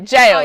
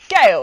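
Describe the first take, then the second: First: The word sounds exactly like jail. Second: The word does not sound like jail. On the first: The speaker calls it right. "I know it's jail" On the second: The speaker calls it wrong. "I always go Gaol"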